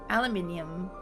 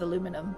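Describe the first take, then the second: First: It is said with five syllables, British style. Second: It is said with four syllables, American style. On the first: "Aluminium is how I say it" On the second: "the American pronunciation"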